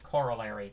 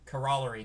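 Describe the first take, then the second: First: The word ends with a sound like 'Larry'. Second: The word ends without a 'Larry' sound. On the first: This is how some other people say it. "Some people pronounce it corollary" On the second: This is how the speaker has always said it. "it's always been corollary to me"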